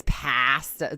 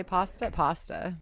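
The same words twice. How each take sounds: First: Drawn-out "pasta" as PAAASS-tuh; mock "pasta" with a long cat-like A; imitated pronunciation. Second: "pasta" with open AH; "pasta" with the A of father; our pronunciation. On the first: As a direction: stretch the short A in "pasta" slowly. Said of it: "She says pasta". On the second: Shown as a demonstration. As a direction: say "pasta" as PAH-stuh. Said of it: "How do we say pasta?".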